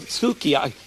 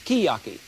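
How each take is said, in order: First: The first vowel is fully pronounced: su-ki-ya-ki. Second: The first vowel is dropped: skiyaki. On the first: The speaker calls it wrong. "This is not suki" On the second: The speaker calls it right. "They tell me it's skiyaki"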